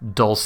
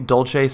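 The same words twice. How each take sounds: First: The word is pronounced the Spanish way. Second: The word is pronounced the Italian way. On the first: The speaker calls it wrong. "or whatever Spanish pronunciation sounds kind of weird to me" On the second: The speaker calls it right. "sounds a little bit better"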